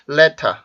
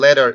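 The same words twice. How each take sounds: First: The r sound at the end is dropped. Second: The r sound at the end is pronounced. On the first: "letter 이렇게 발음하는 사람도 있고" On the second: "여러분들이 알고 있는 letter 이런 발음도"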